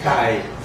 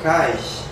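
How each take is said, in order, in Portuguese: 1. A palavra termina em som de vogal. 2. A palavra termina em consoante fricativa. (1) "Virou uma vogal" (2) "Existem machacali que pronunciam cais? ... Alguns pronunciam assim"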